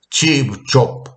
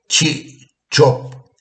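First: A p sound links the first syllable to the next. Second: The syllables are said separately without a p sound. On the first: The speaker calls it right. "le añado la B para que diga chipto, porque así lo pronuncian" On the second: The speaker calls it wrong. "así no lo pronuncian las personas que hablan zapoteco"

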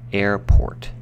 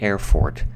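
First: The middle consonant is a p sound. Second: The middle consonant is an f sound. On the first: The speaker calls it right. "it's not an F" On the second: The speaker calls it wrong. "it's not an air fort"

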